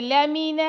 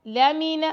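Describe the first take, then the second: First: لَمِنَ with the لام stretched long; wrong drawn-out reading. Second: لَمِنَ with short vowels, not stretched; correct short reading. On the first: Teacher shows students the wrong, stretched reading. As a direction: stretch the vowel of لَمِنَ as a mistake. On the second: Teacher gives students the correct short reading. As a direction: say لَمِنَ crisply, no lengthening. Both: Shown as a demonstration. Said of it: "اس کو لمبا نہیں کرنا".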